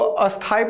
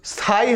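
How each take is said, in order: First: An extra 'a' vowel comes before the cluster. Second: The word starts directly with the 'sth' cluster. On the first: The speaker calls it wrong. "उसको अस्थाई पढ़ते हैं, अ पहले से लगा देते हैं, हालांकि वो गलत हो जाता है" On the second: The speaker calls it right. "जो स्थाई है"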